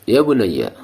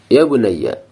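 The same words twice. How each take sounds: Both takes have the same delivery.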